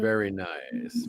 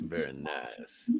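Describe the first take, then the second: First: Said in the usual way. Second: Much lower, softer and slow; mock low voice. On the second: Repeating praise of the cover as a slow, low mock echo.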